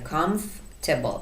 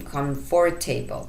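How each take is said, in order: First: A middle syllable is dropped and silent. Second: Every syllable, including the middle one, is pronounced. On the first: The speaker calls it right. "اینجا یه سیلاب ساکت داره" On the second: The speaker calls it wrong. "اینجا دیگه نمیگیم comfortable، اشتباهه"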